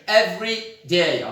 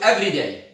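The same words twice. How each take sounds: First: There is a slight pause between the two words. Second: The two words run together without a pause. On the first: It is an adverb of frequency. "there is kind of a pause here" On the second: It is an adjective describing a noun. "as opposed to"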